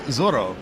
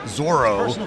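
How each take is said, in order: First: The name is pronounced the Spanish way. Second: The name is pronounced the English way. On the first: The speaker calls it right. "But it's it's Zorro" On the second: The speaker calls it wrong. "I think the anglicized Zorro"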